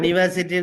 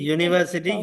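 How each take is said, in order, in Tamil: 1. வார்த்தை 'ah' ஒலியுடன் தொடங்குகிறது. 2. வார்த்தை 'yoo' ஒலியுடன் தொடங்குகிறது. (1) "நாங்க அனிவர்சிட்டி என்று சொல்றதில்ல" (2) "யூனி"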